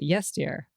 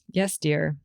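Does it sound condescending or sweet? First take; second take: condescending; sweet. First: It sounds condescending and dismissive. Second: It sounds sweet and affectionate.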